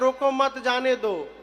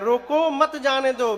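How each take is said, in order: First: The pause comes right after 'mat'. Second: The pause comes right after 'roko'.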